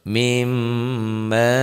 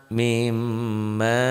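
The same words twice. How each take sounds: The two takes are said the same way.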